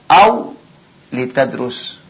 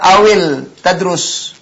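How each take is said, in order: First: The l is followed by an i vowel. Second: The l has no vowel after it. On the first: The speaker calls it right. "Tetap dibaca kasrah" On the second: The speaker calls it wrong. "Nggak bisa awil tadrus"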